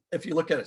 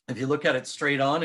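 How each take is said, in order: First: Hiccuping mid-phrase; words broken by a hiccup. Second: Said in the usual way. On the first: Real, not acted. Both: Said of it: "sorry, I'm hiccuping".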